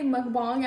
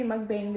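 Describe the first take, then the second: First: "mukbang" said as muk-bong, open o vowel; "mukbang" with "bong" at the end, the way others say it; "bong" pronunciation. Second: "mukbang" said as muk-bayng, ay vowel; "mukbang" ending in "bayng", her own way; "beng" pronunciation. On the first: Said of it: "some people say mukbang". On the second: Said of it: "and I say mukbang". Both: Shown as a demonstration.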